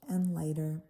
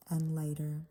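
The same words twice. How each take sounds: The two takes are said the same way.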